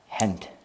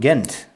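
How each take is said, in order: First: The name begins with an H sound. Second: The name begins with a hard G sound. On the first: The speaker calls it right. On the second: The speaker calls it wrong.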